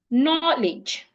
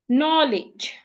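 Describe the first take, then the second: No difference in how they are said.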